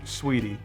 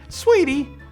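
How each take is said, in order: First: The word is said in a pointed, menacing tone. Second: The word is said in a warm, friendly tone. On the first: The person is angry at you. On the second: The person is being genuinely kind.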